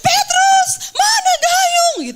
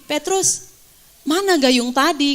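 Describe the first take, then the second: First: It is shouted quickly in a panic. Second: It is said calmly and slowly.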